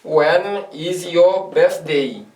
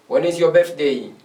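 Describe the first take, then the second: First: Each word drawn out for the class; very slow drill. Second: Said in the usual way. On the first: Shown as a demonstration. Teacher repeats the question very slowly for beginners to follow. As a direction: stretch it out word by word. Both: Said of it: "j'ai dit".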